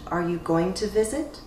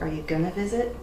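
First: The phrase is said in full as 'going to'. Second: The phrase is reduced to 'gonna'. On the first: "Again, you'll have variation" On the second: "Again, you'll have variation"

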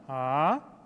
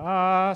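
First: The pitch rises from low to high. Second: The pitch stays level throughout. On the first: "from low to high" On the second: "the first sound is like, ah. So you don't really change the tone"

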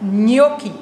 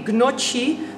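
First: The word begins with an NY sound. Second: The word begins with a hard G sound. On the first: The speaker calls it right. "Dus N-J-O-K-K-I-E" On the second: The speaker calls it wrong. "Je zegt geen gnocchi"

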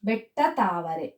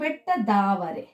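First: The second word begins with a t sound. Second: The second word begins with a d sound. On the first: The speaker calls it wrong. "ಬೆಟ್ಟ ತಾವರೆ ಅನ್ನೋದಿಲ್ಲ ನಾವು" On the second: The speaker calls it right.

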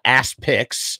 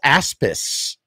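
First: A k sound comes before the final s. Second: No k sound comes before the final s. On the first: The speaker calls it wrong. "it's not Aspics" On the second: The speaker calls it right. "I think it's Aspis. I believe that's the phonetic pronunciation"

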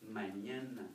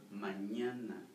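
First: The middle consonant is an ny sound. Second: The same.

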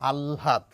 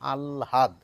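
First: The l is breathy, with h blended in. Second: An l followed by a separate h sound. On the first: The speaker calls it right. "ল নয় ল সঙ্গে একটু হ মেশানো ... প্রমিত উচ্চারণ" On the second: The speaker calls it wrong. "লটিকে আগে নিয়ে যান, হটিকে পরে নিয়ে বলেন আহ্লাদ"

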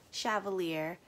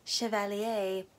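First: The name is pronounced with English-style sounds. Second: The name is pronounced with French-style sounds. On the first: The speaker calls it wrong. "She keeps calling it Chevalier" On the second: The speaker calls it right. "that's how you say it"

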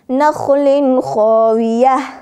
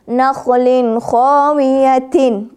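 First: The last word ends with an -h sound. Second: The last word ends with a -tin sound. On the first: The reciter stops on this word. "گفتیم تا به ها مبدل میشه هنگام وقف" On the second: The phrase continues without a stop. "تا دو زیرتین"

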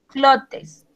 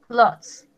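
First: The word is sounded out as it is spelled. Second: The word is said with its usual pronunciation. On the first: "se escribe clotes" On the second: "Se pronuncia clothes"

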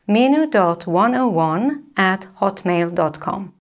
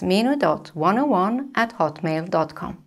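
First: It is said slowly. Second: It is said a bit faster.

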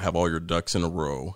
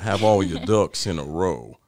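First: It is said in the speaker's usual accent. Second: It is said in a Southern US accent.

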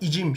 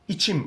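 First: The middle consonant is a voiced 'j' sound. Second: The middle consonant is a voiceless 'ch' sound. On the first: The speaker calls it wrong. "Bunu icim şeklinde yumuşatarak söylemiyoruz" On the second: The speaker calls it right. "im ekini aldığında içim oluyor"

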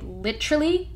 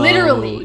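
First: The word is said with a British accent. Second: The word is said with a non-British accent. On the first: It copies the speech of online video makers. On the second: It is the speaker's own usual way of speaking.

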